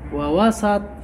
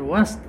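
First: The s is followed by a short a vowel. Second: The s is said with no vowel after it. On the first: The middle is part of the thing itself. "اللي هي المفتوحة" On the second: The thing is among the others, not part of them. "وسط ليست جزءا من المضاف إليه"

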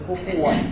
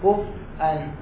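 First: The f takes a u vowel and there is no glottal stop. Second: The f has no vowel and a glottal stop follows it. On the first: "ضم الفاء مع شنو بدون همزة" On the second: "سكون فاء مع همزة"

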